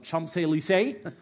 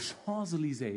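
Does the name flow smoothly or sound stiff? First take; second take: stiff; smoothly. First: The name is said stiffly and awkwardly. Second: The name is said smoothly and flowingly. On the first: The speaker calls it wrong. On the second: The speaker calls it right. "It just kind of rolls off your tongue"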